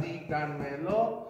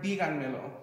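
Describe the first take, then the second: First: "díganmelo" slowly divided into four syllables; slow four-part breakdown of "díganmelo". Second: "díganmelo" in one go, stress on the opening dí; "díganmelo" joined up with its first syllable emphasized; whole word, first syllable stressed. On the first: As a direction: sound out "díganmelo" piece by piece. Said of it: "if you look at the number of syllables". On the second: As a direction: say "díganmelo" straight through, leaning on dí. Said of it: "you can hear that the accent and the emphasis is on the fourth syllable". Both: Shown as a demonstration.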